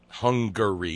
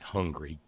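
First: The name is said in a standard way. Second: The name is said in a rustic, hillbilly way. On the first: The speaker calls it right. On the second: The speaker calls it wrong.

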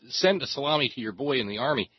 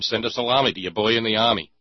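First: The R in army is clearly pronounced. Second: The R in army is dropped, New York style. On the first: The two words only roughly rhyme. "is an approximate rhyme if you say it like that" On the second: The two words rhyme perfectly. "if you make it a silent R in army, it's a direct, perfect rhyme"

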